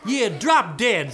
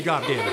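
First: Loud, slow and punched; rude retort. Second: Said in the usual way. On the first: Acted. Cursed sister answering the bear, loud slow rude retort. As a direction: hit every word with insolence.

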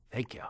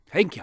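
First: Said in the usual way. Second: A bright, louder second thanks; louder thank you. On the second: Acted. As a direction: thank again, with more gusto.

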